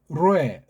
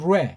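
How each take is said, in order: First: The vowels are said as two separate syllables. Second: The vowels are blended into one short syllable. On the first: The speaker calls it wrong. "발음을 무식하게 하려면 로에, 로에 이건 조금 좀 그렇고" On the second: The speaker calls it right. "오보다는 우라고 하는 것을 하나 넣고 레"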